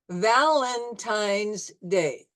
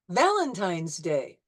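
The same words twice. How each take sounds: First: It is said slowly, syllable by syllable. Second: It is said smoothly at normal speed. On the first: "you'll hear it in slow motion syllables" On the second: "at regular speed"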